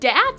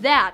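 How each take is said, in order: First: The word begins with a d sound. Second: The word begins with a th sound. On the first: "Dat instead of that" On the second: "the D letter is taking over the T H"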